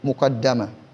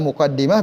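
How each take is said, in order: First: The vowel after the double d is 'a'. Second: The vowel after the double d is 'i'. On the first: "bisa juga dibaca muqaddamah" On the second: "Bisa muqaddimah"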